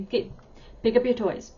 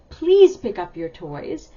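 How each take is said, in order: First: Abrupt command. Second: Slow, louder, friendly "Please" lifted at the start; nicer request. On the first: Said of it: "It kinda sounds abrupt". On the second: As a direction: ask kindly, leaning on "Please". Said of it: "even the please makes it sound nicer". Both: Shown as a demonstration.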